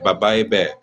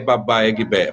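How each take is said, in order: First: No G sound is heard before the B. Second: A G sound is heard before the B. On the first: The speaker calls it right. "O G não fala" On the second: The speaker calls it wrong. "Não é babaegbé"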